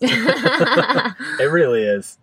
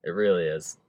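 First: Slow, through laughter; laughing. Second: Soft, after the laugh settles; quiet. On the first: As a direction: laugh it out, drawn long. Laughing agreement. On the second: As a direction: say it softly, sincerely. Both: Real, not acted.

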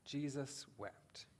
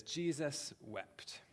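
First: Softer repeat of Jesus wept, slow and falling; softer echo. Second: Very slow, Jesus drawn out and falling; slow solemn quote. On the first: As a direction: echo the verse again, hushed. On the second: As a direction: read the verse slowly, weighing each word. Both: Shown as a demonstration. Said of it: "It says".

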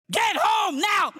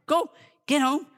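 First: High, drawn-out holler; acted yell of a woman out of patience; fed-up command. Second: Higher-pitched retold shooing; mild command to a pesky dog. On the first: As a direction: holler it at the dog, stretching each word. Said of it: "Finally, she said". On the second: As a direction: tell the little dog off, not yet yelling. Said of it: "nips at her".

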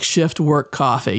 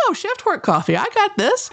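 First: Said in the usual way. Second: Cocky self. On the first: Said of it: "set against her own take at 138". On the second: Retold or imitated. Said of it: "I'm like".

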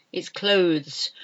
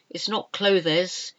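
First: "clothes" in one syllable, klohz; correct pronunciation. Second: "clothes" in two syllables, clo-thez, slowly; wrong pronunciation. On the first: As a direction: keep the e in "clothes" silent. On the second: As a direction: sound the e in "clothes" as an extra syllable. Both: Shown as a demonstration.

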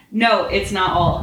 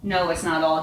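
First: Louder, slower, sniffling with wounded pride; sniffling indignant. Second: Said in the usual way. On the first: A narrator's reading. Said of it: "he sniffled indignatively". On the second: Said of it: "He sniffled indignant".

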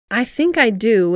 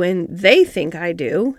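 First: "I" leaned on, then falling; lightly stressed "I", settling down after. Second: "they" punched, slow; slow phrase with the weight on "they"; stress on THEY. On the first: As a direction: put the weight on "I think". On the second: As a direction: lean hard on "they". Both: A narrator's reading. Contrast of I and they.

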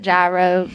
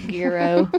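First: "Gyro" with a soft zh start, ZHY-roh. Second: "gyro" with a hard g, GHEE-roh. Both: Shown as a demonstration. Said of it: "however you wanna say it".

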